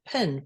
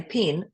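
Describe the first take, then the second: First: PIN said slowly with a short vowel; pin as misheard. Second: PEN with the vowel raised towards "pin"; own pronunciation of pen. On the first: Guest showing what Australians think they hear, pin as misheard. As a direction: set pin apart slowly as the misheard word. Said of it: "and they think pin". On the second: Guest showing the word Australians misunderstand, her own pronunciation of pen. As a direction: say pen so it could pass for "pin". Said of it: "I say pen". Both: Shown as a demonstration.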